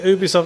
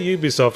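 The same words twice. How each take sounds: First: The word begins with a plain vowel sound. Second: The word begins with a 'y' consonant sound. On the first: "Do you say Ubisoft?" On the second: "The pronunciation has to start with a consonant"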